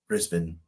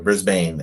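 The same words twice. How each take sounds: First: The name is said in a non-American way. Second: The name is said in an American way.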